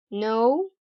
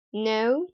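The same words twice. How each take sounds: First: "no" with a rounded oh-oo glide; American long O. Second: "no" with an uh-oo glide; British long O. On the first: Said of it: "in American English". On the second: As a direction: say no the British way, "nəu". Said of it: "in the British accent". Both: Shown as a demonstration.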